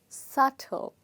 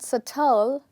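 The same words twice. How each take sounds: First: The stress is on the first syllable. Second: The stress is on the second syllable. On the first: The speaker calls it right. "here the first part is stressed" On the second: The speaker calls it wrong. "the word is not subtle"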